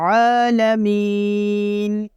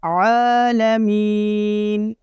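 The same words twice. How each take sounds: No difference in how they are said.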